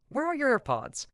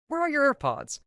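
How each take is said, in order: First: Higher, urgent, as if just ran over; breathless retold question. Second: Higher still, pushed and insistent; more frantic repeat. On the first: Friend ran over to ask about AirPods, mock breathless. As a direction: ask it like you sprinted to get here. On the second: Retold or imitated. Friend repeats the question, mock frantic and breathless. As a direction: repeat it, more desperate this time. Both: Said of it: "came running over all out of breath".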